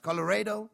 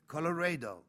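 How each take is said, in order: First: COLORADO as a high, loud question; Colorado thrown back as a demanding question; sharp question. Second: Colorado as a falling statement; Colorado settled downward, no question; confirming answer. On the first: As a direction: say Colorado pitched up, challenging. Trucker checks the answer. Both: A narrator's reading.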